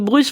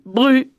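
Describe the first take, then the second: First: The final consonant of the name is pronounced. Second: The final consonant of the name is silent. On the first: This is how people near Rennes say it. "quand on est là-bas, on dit Bruce près de Rennes" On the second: This is how local people say it. "on dit Bru. On prononce pas les consonnes finales"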